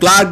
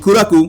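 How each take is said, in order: First: It is said with English sounds. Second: It is said with Japanese sounds and extra vowels.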